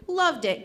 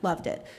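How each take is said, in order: First: Higher, emphatic praise; excited praise. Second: Said in the usual way. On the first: Real, not acted. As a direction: lift the voice in delighted approval. Praise repeated with more excitement.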